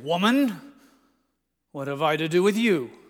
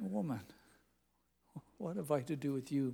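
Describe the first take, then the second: First: It is said in a gruff, harsh tone. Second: It is said in a tender, respectful tone. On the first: The speaker is brushing her off. The speaker calls it wrong. "it wasn't gruff. I don't want you to hear him say" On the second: The speaker is addressing her with respect. The speaker calls it right. "Tenderness and respect"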